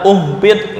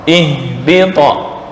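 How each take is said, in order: First: The word begins with a u vowel. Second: The word begins with an i vowel. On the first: The speaker calls it wrong. "nggak boleh dibaca uhbit ... dibaca dhammah" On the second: The speaker calls it right. "hamzah wasal dibaca kasroh"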